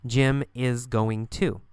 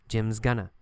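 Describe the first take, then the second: First: "Jim is going to" slowly, word by word; careful full forms. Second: "Jim's gonna" blended, falling; reduced going to. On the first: Teacher giving the equivalent, full "is going to". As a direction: give "is going to" every syllable. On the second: Teacher repeating the spoken form, reduced "Jim's gonna". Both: Shown as a demonstration.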